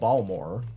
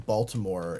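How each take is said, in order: First: The middle 't' syllable is dropped. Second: The middle 't' syllable is kept. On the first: This is how locals say it. "they call it Balmore" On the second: This is the outsider's way of saying it. "Even me just saying Baltimore"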